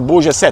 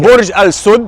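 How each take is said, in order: First: It is said with French pronunciation, syllables run together. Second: It is said with Arabic pronunciation, all syllables clear. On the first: This is how the name is said in France. "In France, they pronounce it as Burj set" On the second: This is the original form of the name. "Burj Al Sud is an Arabic word"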